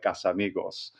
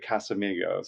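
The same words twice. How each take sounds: First: It is said with a Spanish accent. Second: It is said with an American English accent. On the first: "instead of like Casamigos" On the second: "how you know Americans say Casamigos"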